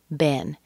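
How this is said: The vowel is short, as in egg. "in the United States is pronounced B, E as in egg, N"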